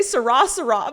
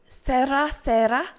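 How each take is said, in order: First: "sera, sera" as suh-RAH, suh-RAH; wrong pronunciation. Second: "Sera, sera" as SEH-ra, SEH-ra; attempted Spanish r. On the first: Streamer stuck on her wrong version, suh-RAH suh-RAH. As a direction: stress the end of each "sera" with an American r. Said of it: "that's not how you say it". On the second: Streamer practising the Spanish phrase, tentative SEH-ra SEH-ra. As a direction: stress SE in each "sera", unrolled light r. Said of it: "I can't roll my R's". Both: Shown as a demonstration.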